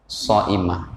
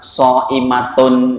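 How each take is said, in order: First: The word ends with a soft 'h' sound. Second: The word ends with a full 'tun' ending. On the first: "kalau dibaca wakaf jadi apa?"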